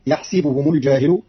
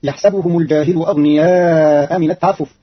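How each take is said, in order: First: يحسبهم with kasra on the sin, yahsibuhum; Qalun reading. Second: Said in the usual way. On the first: Shown as a demonstration. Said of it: "فتصير". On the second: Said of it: "quoted verse before the variant".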